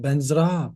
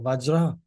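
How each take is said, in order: First: It begins with a B and has an N. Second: It begins with a V and has a J. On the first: This is the Tibetan rendering of the word. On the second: This is the original Sanskrit form.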